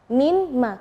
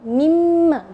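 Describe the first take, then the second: First: The n is heard before the m. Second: The n merges into a doubled m. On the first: This is the original separate form. "Kalau asalnya min ma" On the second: The two sounds are joined into one. "ketika digabung mimma, jadi nunnya tidak kelihatan"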